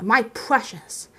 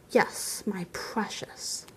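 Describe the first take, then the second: First: Slow, voiced, drawn-out relish; possessive. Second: Slow, hushed, whispered possessiveness; gloating whisper. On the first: Bilbo claims the ring as his own, slow and possessive. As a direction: draw the words out possessively. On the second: Bilbo croons over the ring to himself, whispering. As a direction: whisper it slowly, as to the treasure. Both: A narrator's reading.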